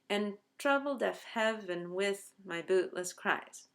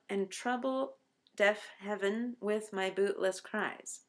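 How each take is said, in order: First: Trouble is said quickly as one syllable. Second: Both trouble and heaven keep two syllables. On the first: "trouble is the word that should collapse to one syllable" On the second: "has eleven syllables if you read it this way"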